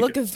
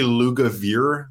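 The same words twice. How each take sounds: First: The last syllable does not rhyme with beer. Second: The last syllable rhymes with beer. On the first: This version makes the name sound exotic. "You said it with a European flair" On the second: This is the family's own pronunciation. "It's actually Lugavere, like beer"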